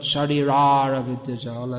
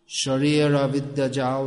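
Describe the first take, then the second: First: An extra 'ra' syllable follows Sharira. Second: Sharira runs straight into the next word. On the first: The speaker calls it wrong. "not Sharirara Vidyajal, as is often heard" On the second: The speaker calls it right. "that's Bengali"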